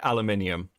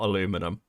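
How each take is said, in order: First: It is said the British way. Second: It is said the American way. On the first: "the British say aluminium" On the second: "not aluminum"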